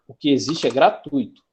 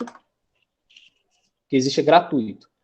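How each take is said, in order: First: Said in the usual way. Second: Gratuito said slowly as gra-TUI-to, stress on tui, not on i; slow teacher model of gratuito, ui as one syllable; correct pronunciation. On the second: Shown as a demonstration. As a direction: spell out gratuito slowly with the diphthong ui kept together. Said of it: "A palavra gratuito não existe".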